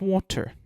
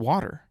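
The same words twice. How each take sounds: First: It is said with a British accent. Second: It is said with an American accent. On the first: The speaker calls it wrong. "how I say water in the U K" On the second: The speaker calls it right. "Just water"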